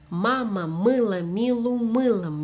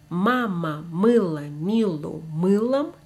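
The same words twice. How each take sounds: First: The phrase is said at a faster pace. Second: The phrase is said at a normal pace.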